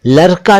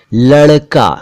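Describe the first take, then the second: First: लड़का said as larka, plain r; wrong r for ड़. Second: लड़का with a retroflex flap ड़; correct flap ड़. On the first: Teacher shows what not to say, लड़का with plain r. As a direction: put र in place of ड़ in लड़का. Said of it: "नहीं कह सकते". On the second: Teacher models the word for boy, लड़का with flap ड़. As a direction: curl the tongue for ड़ in लड़का. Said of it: "उच्चारण पर ध्यान दीजिए". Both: Shown as a demonstration.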